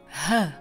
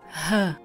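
Both takes have the same delivery.

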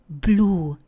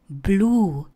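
Both takes have the same delivery.

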